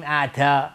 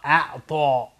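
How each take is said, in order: First: اعطا with thin t and open a; wrong light t. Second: اعطا with thick t and o-like ending; heavy ta'a. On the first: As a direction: show the mistaken light t in اعطا. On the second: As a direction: round the mouth on اعطا. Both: Shown as a demonstration.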